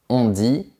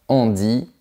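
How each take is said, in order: No difference in how they are said.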